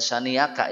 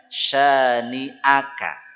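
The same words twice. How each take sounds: First: The glottal stop in the middle is weak. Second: The glottal stop in the middle is strong. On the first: The speaker calls it wrong. "Bukan syani'aka ya" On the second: The speaker calls it right. "Tadi huruf hamzah itu selalu kuat"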